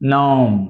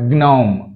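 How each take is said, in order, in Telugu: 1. ఈ పదం 'n' తో మొదలవుతుంది, 'g' లేదు. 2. ఈ పదం 'g' శబ్దంతో మొదలవుతుంది. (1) "జీ అనేది సైలెంట్ అవుతుంది" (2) "నాట్"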